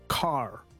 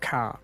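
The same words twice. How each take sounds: First: It is said in an American accent. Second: It is said in an Aussie or Kiwi accent.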